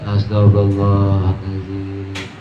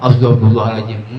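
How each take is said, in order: First: It is said in a calm, earnest tone. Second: It is said as a startled, surprised exclamation. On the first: A sincere plea for forgiveness. The speaker calls it right. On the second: A reaction to seeing something strange. The speaker calls it wrong.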